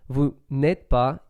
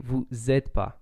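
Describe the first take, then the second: First: The 'ne' sound is pronounced in full. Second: The 'ne' is dropped and the words are shortened.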